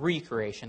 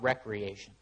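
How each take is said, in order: First: It begins with 'ree', split off from 'creation'. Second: It begins with 'rek', said as one word. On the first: Being created anew. "Put the hyphen on there, just the same word, but we're talking about recreation" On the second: Leisure and entertainment. "not recreation"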